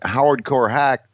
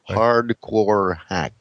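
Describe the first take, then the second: First: The name is run together and hard to understand. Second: The name is said slowly with every sound exaggerated. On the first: "you got to start working on your enunciation" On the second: "it sounds like you have a speech impediment you're trying to overcome now"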